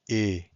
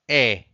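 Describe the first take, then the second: First: The vowel is said with a closed mouth. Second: The vowel is said with an open mouth. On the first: "it's a bit more close" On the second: "it's a bit more open"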